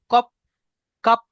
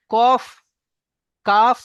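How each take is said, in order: First: কাপ ending in a hard p, lips closed; wrong p ending. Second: কাফ ending in a breathy f, air through the lips; correct f ending. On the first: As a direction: say কাপ with a stopped p. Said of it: "লাস্টে প উচ্চারণ করছে". (কাপ শেষে প উচ্চারণ) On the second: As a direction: let the air pass on কফ and কাফ. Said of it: "দুই ঠোঁটের মাঝখান থেকে হাওয়াটা পাস হয়ে যাবে". (ঠোঁটের ফাঁক দিয়ে হাওয়া দিয়ে ফ) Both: Shown as a demonstration.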